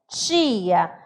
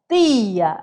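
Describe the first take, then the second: First: It is said in a Northern Brazilian accent. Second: It is said in a Northeastern Brazilian accent. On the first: "olha só a questão do meu T" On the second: "do Nordeste vai falar tia"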